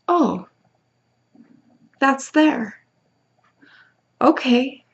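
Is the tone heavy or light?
light. It sounds light and playful.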